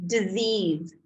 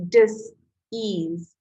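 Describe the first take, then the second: First: Said in the usual way. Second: "dis-ease" said as two parts, dis then ease; "dis-ease" pulled apart, not "disease"; split word dis-ease. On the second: Shown as a demonstration.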